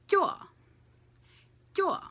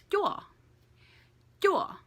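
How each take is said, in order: Both takes have the same delivery.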